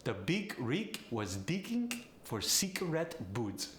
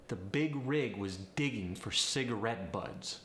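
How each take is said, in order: First: Polish accent with G hardened to K; higher-pitched Polish accent, "big rig" as "beek reek". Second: Said in the usual way. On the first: Shown as a demonstration. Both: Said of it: "The G goes to a K".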